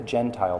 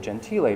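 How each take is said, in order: First: The name is said like the English word gentile. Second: The name is said with Italian pronunciation. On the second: It is the Italian surname.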